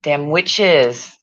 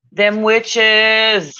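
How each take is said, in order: First: Said in the usual way. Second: Witches called out higher and louder; louder mock proclamation. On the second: Shown as a demonstration. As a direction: announce it like a spooky warning.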